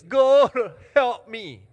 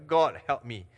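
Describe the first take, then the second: First: Loud, high hammed-up cry to God; mock desperate prayer. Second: Brief, firm prayer without the wail; short prayer. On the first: Preacher shows congregation how they pray, mock desperate cry. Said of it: "pray prayer like this". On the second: Preacher shows congregation a prayer not too long, kept short. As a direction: say it short, a bit louder, unraised pitch. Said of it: "you don't pray too long". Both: Shown as a demonstration.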